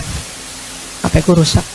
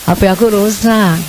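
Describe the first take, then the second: First: It sounds plain, flat and self-reliant. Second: It sounds coy, whiny and high-pitched. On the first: She acts as if she can handle it alone. The speaker calls it wrong. "Sok-sok mandiri gitu kan" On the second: She invites her husband to help and pamper her. The speaker calls it right. "Sekarang ya, ... agak manja dan nyaring"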